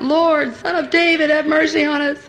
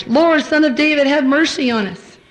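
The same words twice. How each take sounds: First: Raised, higher cry for mercy; shouting out. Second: Louder, higher desperate cry; shouting louder. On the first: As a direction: call out over the crowd. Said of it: "they shouted out". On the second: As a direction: call out even harder over the crowd. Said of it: "they shouted all the louder". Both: Retold or imitated.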